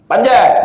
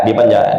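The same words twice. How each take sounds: First: Sharp, higher call of panjat; barked-out trainer order panjat; dog command. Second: Said in the usual way. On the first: Acted.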